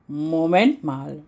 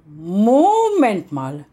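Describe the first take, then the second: First: Slow, drawn-out dawning realisation; first slow muttered take of the repeat; slow halting. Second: Louder, slow and emphatic repeat; the second, louder alarmed take; alarmed realisation. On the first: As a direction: let it sink in word by word. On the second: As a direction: it suddenly clicks, say it out loud. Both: Acted. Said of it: "stotterte sie".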